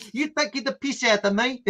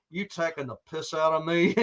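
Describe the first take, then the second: First: Higher, mock-offended Rhodesian accent. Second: Bad American accent. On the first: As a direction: challenge them as an imitated Rhodesian. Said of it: "about his accent". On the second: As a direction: challenge them as a badly faked Texan. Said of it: "I can't do an American accent".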